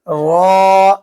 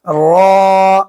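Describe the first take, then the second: No difference in how they are said.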